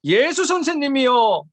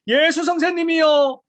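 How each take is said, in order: First: Slow, somewhat raised plea; mildly raised cry of the lepers. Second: Loud, slow, drawn-out shout; shouted plea. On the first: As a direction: call to Jesus with lifted voice. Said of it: "큰 소리로 막 외치는 거죠". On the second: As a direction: shout it so he hears from far off. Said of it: "막 외치는 거예요". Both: Retold or imitated.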